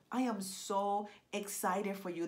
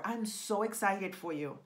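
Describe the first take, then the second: First: Slow, spaced "I am so excited"; emphatic excitement. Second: Said in the usual way. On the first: Real, not acted. Coach to serious writers, slow emphatic "I am so excited". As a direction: draw out "so" in "I am so excited".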